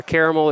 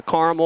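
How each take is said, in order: First: CARAMEL said as CARE-uh-mel; mispronounced caramel. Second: CARAMEL said as CAR-mul; two-syllable caramel. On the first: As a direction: say "caramel" in three syllables, first like "care". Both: Shown as a demonstration. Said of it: "if you don't know how to pronounce words".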